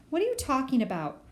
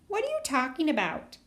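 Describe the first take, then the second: First: Said in the usual way. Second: Higher teasing copy of his words; mocking mimicry. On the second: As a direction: parrot him back to tease. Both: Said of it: "Alex mimicked".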